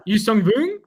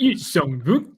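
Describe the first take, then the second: First: Higher, louder "Yuzong Vong" with a French lilt; exaggerated French take on "Yuzong Vong"; mock French accent. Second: Exaggerated mock accent on "Yuzong Vong"; hammed-up accent, laughing through it. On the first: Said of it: "now it's getting French". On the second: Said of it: "please reprise your Yuzong Vong pronunciation". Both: Shown as a demonstration.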